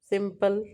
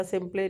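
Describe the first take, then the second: First: Said in the usual way. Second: सिंपल ही said as "sim-play", silent E voiced; wrong final E. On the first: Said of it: "जिसका pronunciation नहीं होता". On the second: Shown as a demonstration. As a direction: sound out a final "ay" after सिंपल. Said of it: "नहीं होता". (सिंपल के अंत का ई गलत तरह से "सिंप्ले" बोलकर)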